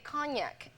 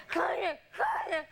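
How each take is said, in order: First: Said in the usual way. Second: Gasping for cognac, mock. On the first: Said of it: "He was saying". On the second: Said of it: "he starts saying".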